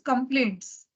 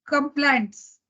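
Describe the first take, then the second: First: The word is said with light force. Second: The word is said with heavy force. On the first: The speaker calls it right. "pronounced also at a lighter tone" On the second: The speaker calls it wrong. "wrongly pronounced as complaints"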